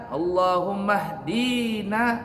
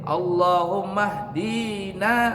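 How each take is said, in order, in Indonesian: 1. Vokal dalam 'di' dibaca panjang. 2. Vokal dalam 'di' dibaca panjang.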